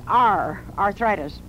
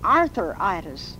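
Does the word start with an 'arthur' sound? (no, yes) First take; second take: no; yes. First: The first part has no 'arthur' sound. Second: The first part sounds like 'arthur'. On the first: The speaker calls it right. "It has nothing to do with Arthur. It's arthritis" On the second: The speaker calls it wrong. "They say arthritis. Which, of course, is wrong"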